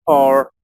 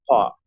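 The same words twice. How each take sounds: First: "poor" with a full R at the end; American English. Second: "paw" as R-less British "poor"; British English. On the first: Teacher showing learners the American form, R clearly pronounced. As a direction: sound the final R of "poor", American style. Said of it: "inglés americano y el inglés británico". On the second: Teacher showing learners the British form, final R dropped. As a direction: drop the R of "poor" into a schwa, giving "paw". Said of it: "cuando tenemos una R al final, suena como una schwa". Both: Shown as a demonstration.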